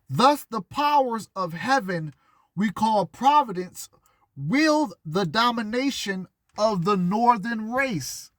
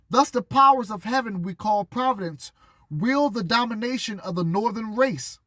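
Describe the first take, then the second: First: It is read slowly. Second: It is read at normal speed.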